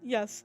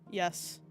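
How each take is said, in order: First: It is said with natural expression. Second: It is said flat and robotic.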